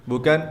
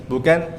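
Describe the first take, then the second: The two takes are said the same way.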